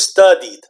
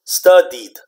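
First: The ending is said as a single syllable. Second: The same.

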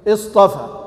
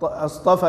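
First: It starts with a connecting hamza, not glottal. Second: It starts with a firm interrogative glottal stop. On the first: It is the plain base verb. "همزة وصل" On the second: It asks a question. "الهمزة هنا همزة ماذا؟ همزة استفهام"

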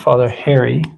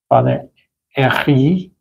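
First: The name is said with a plain English accent. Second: The name is said with an exaggerated French accent. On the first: The speaker calls it wrong. "Not Father Harry" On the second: The speaker calls it right. "I'm going to try to put a exaggerated French accent on it"

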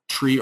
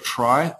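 First: The vowel sounds like the one in 'see'. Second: The vowel sounds like the one in 'sky'. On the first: "or kind of tree or try, are the two ways to pronounce this" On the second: "I'll say try just to keep it different from data tree"

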